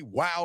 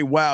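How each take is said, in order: First: Understated wow, softly dropped; unconvincing wow. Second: Low wow with some weight; impressed woman's wow. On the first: Retold or imitated. Host mimicking the suspected bot's reply, unconvincing wow. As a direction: give a low-key, bot-like wow. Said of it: "A woman doesn't say, "Wow," like that". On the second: Shown as a demonstration. Host showing how a real woman reacts, impressed wow. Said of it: "Now, they will say, "Wow," if you, like, do some moves".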